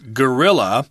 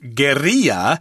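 First: The word is said with English pronunciation. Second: The word is said with Spanish pronunciation. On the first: "since we're speaking English, we would pronounce this word as guerrilla" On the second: "in the original Spanish, it would be pronounced guerrilla"

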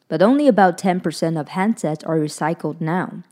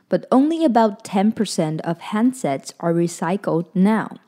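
First: It is read at a quicker pace. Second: It is read at a slower pace.

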